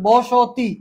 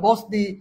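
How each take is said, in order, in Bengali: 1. s ও t-এর মাঝে একটা স্বরধ্বনি বলা হয়। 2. s ও t কোনো স্বরধ্বনি ছাড়াই জোড়া লাগে। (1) "আমার এখানে কিন্তু একটা ও আসে।" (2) "হসন্ত মানে এখানে থামা যাবে না।"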